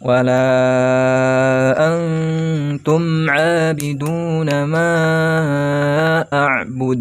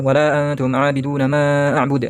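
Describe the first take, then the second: First: The vowel after 'wa' is held long. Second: The vowel after 'wa' is short and rushed. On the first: The speaker calls it right. "lam yang dibaca pan, panjang" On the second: The speaker calls it wrong. "tidak dibaca cepat-cepat"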